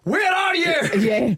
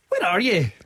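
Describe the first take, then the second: First: The words are shouted at a loud, angry volume. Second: The words are said at a calm, normal volume. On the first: The person is angry and the listener is in trouble. "But if I go, ... it sounds like you're shouting" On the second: A plain, neutral question. "So if I go"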